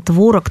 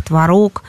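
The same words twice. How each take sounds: First: "творог" said as TVOrog; first-syllable stress. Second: "творог" said as tvaROG; second-syllable stress. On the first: Expert showing one accepted variant, "творог" stressed on тво. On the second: Expert showing the other accepted variant, "творог" stressed on рог. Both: Shown as a demonstration. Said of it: "дают оба варианта".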